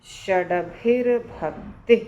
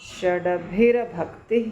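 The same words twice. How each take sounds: The two takes are said the same way.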